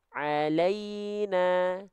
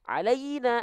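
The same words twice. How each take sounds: First: The vowel glide is said softly and gently. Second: The vowel glide is said harshly and abruptly. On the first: The speaker calls it right. "Jadi dibaca lembut ya" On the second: The speaker calls it wrong. "alaina nggak"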